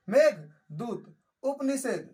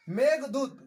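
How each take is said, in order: First: Meghdoot slowly, split as मेघ, then दूत; slow dictation. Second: Said in the usual way. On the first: Shown as a demonstration. Teacher repeating a book title for students, Meghdoot in slow, separated parts. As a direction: dictate Meghdoot with a firm first part and a gap before दूत.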